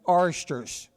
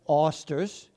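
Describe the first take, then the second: First: It is said in a Southern Maryland accent. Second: It is said in a New England accent. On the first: "we in Southern Maryland, anybody from Washington, D C south, generally call them" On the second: "The people from the New England states would call them"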